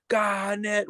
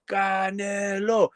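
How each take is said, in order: First: Said in the usual way. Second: Slow, higher drawn-out call of the name. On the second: Retold or imitated. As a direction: stretch the name out slowly, pleading. Calling out Canelo in disbelief.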